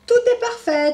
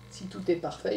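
First: High, loud confident verdict; doctor declaring. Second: Said in the usual way. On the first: Acted. Doctor announcing to Tom after examining him, high and loud. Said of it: "déclare-t-il". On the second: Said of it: "Il a raison, Tom".

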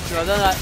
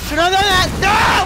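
First: Said in the usual way. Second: Yelled high and loud in rage; furious shout. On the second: Real, not acted. Gamer dying in match, screaming in real rage.

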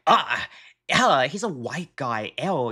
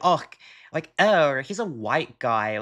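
First: Imitating the streamer's disgusted tone; mock disgusted. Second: Light, teasing "oh" and a dropping end; demoing the joking version of the remark; joking manner. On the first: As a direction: sneer it with revulsion. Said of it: "the way that she's like". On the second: Shown as a demonstration. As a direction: toss it off like a joke. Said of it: "maybe in a joking manner".

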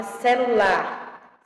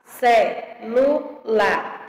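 First: Said in the usual way. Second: Very slow "Celular", ce-lu-lar in separate beats; syllable by syllable. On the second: Shown as a demonstration. Teacher showing how the word separates, syllable by syllable. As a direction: split "Celular" with a gap after each syllable. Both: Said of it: "como é que se separa".

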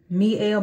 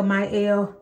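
First: Mielle pronounced "mee-EL". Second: Mielle pronounced "my-EL". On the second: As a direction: say Mielle with a "my" opening. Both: Shown as a demonstration. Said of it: "however you pronounce it".

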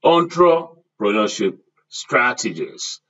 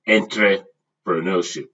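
First: ENTREPRENEURSHIP opening on "ON-tro", said slowly; model pronunciation. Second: ENTREPRENEURSHIP opening on "en-tray", with an EN vowel; usual pronunciation. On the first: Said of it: "Can you repeat after me". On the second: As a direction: say "entrepreneurship" starting EN-tray, as a counterexample. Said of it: "I've not pronounced it". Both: Shown as a demonstration.

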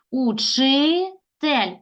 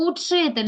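First: "учитель" very slowly as учи, pause, тель; divided for hyphenation. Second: Said in the usual way. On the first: Shown as a demonstration. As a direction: stretch учи, then set тель apart. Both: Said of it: "Лише так можемо перенести".

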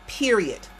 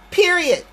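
First: Said in the usual way. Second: Higher, louder final word Period; emphatic period. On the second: Real, not acted. Insisting to viewers, a louder, higher Period. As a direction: slam down "Period." as a closing.

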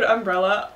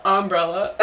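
First: Said in the usual way. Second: "umbrella" opening on a stressed OM; mom's pronunciation. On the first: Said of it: "My mom pronounces the word". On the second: Retold or imitated. Imitating mom, "umbrella" said as OM-brella. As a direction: say "umbrella" as OM-brella, first syllable hit. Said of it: "My mom pronounces the word umbrella".

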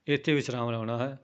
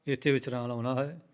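The two takes are said the same way.

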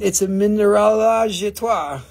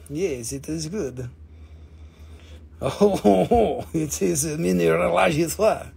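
First: Said in the usual way. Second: Hammed-up French accent with a chuckle. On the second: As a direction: put on a playful French accent. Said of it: "I get my French accent".

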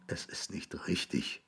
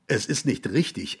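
First: Hushed, breath-only whisper. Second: Said in the usual way. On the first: A narrator's reading. William whispering to the grass between his knees. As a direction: whisper it to yourself, defeated. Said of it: "flüsterte er zu dem Gras".

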